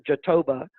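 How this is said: The word is said with an English pronunciation. "the English pronounce pronunciation phonetically is Jatoba"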